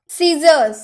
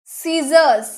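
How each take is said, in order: Both takes have the same delivery.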